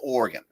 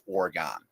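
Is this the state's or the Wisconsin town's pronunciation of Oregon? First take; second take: state; town. First: The name is said the usual state way. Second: The name is said the Wisconsin town way. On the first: This names the US state. "the state is called Oregon" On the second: This names the town in Wisconsin. "The town in Wisconsin is officially pronounced Oregon"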